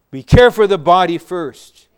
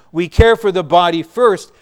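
No difference in how they are said.

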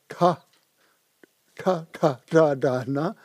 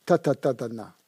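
First: "Ka, Ka, Ka, Da, Da, Na" as retroflex T and D sounds, tongue curled back; retroflex consonants. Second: "Ta, ta, ta, ta, na" with the tongue forward; tongue at the front teeth for each "ta" and "na"; dental consonants. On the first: Teacher demonstrating retroflexes to students, tongue back on "Ka, Da, Na". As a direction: curl the tongue back for each "Ka, Da, Na". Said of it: "un peu avec la langue en arrière". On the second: Teacher demonstrating the next series, tongue forward on "ta, na". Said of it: "avec la langue en avant". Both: Shown as a demonstration.

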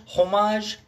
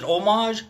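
First: "Homage" with a sounded h, "HOH-mahzh", rising; "Homage" with the h pronounced, tentative; unsure pronunciation. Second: "homage" said "OH-mahzh", silent h, questioning rise; "homage" with a dropped h, French style; unsure pronunciation. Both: Shown as a demonstration. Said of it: "I never know how to say homage".

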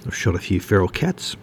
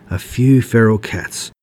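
First: Said in the usual way. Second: Slow, drawn-out jeer on "few feral cats"; mocking echo. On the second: A narrator's reading. Wood Duck echoes Ray's boast, mocking. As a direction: parrot it back with mock awe. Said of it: "Wood Duck mocked".

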